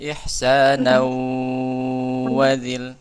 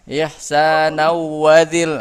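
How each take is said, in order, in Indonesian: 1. Dengung panjang ditahan pada pertemuan bunyi. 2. Tidak ada dengung pada pertemuan bunyi. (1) "Jangan lupa gunanya dipanjangkan" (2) "mencontohkan nggak ada gunahnya"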